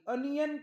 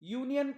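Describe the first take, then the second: First: The word begins with a short 'a' sound. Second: The word begins with a 'yoo' sound. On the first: The speaker calls it wrong. "अनियन का म्हणत नाही?" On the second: The speaker calls it right. "तेव्हा यूचा उच्चार अ न करता यू करतात"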